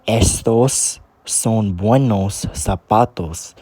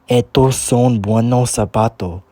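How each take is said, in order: First: Standard Spanish, with the S sounds pronounced. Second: Cuban accent, with the S sounds dropped.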